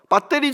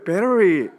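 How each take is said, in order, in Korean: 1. 한국식 발음으로 말해요. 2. 미국식 발음으로 말해요. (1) "제가 발음이 좋지 않은데" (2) "미국에 살아가지고 아빠 배터리가 뭐예요?"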